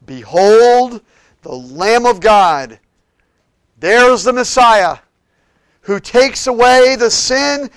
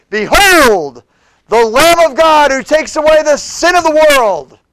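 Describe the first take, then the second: First: Loud, slow, high cry of Behold; shouted proclamation. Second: Behold the Lamb of God shouted high and loud; shouting Behold. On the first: Preacher crying out John's words to the crowd, shouting. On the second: Preacher shouting John's announcement of Jesus, full voice. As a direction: cry it out like a prophet to thousands. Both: Acted. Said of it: "It's like he shouted it".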